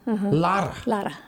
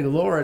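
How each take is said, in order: First: The name is said with a rolled R. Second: The name is said with a plain R. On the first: This is how the name is meant to be said. The speaker calls it right. "With that rolling R" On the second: This is how other people usually say the name. The speaker calls it wrong. "I bet they call you Patty Laura"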